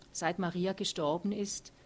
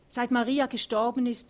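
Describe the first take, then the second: First: Ruhig in normaler Lautstärke, „Maria“ fragend steigend; nachfragend. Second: „Maria“ laut und höher, mit aufgewühlter Stimme; bewegt ansetzend. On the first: A narrator's reading. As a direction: leise behutsame Rückfrage mit Hebung am Ende. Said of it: "fragt er". (Otto fragt Thea ruhig nach: „Seit Maria gestorben ist?“) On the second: Acted. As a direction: setzt aufgewühlt neu an, „Maria“ betont. Thea beginnt erneut, bewegt. (Thea setzt laut und erregt zu „Seit Maria gestorben ist“ an)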